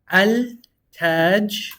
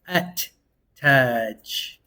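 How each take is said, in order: First: An L sound is pronounced before the T. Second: The L is dropped and the T is doubled. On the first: The speaker calls it wrong. "instead of reading al Taj" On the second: The speaker calls it right. "we're actually gonna read it at Taj"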